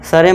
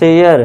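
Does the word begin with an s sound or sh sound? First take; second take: s sound; sh sound. First: The word begins with a plain s sound. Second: The word begins with an sh sound. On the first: The speaker calls it wrong. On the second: The speaker calls it right.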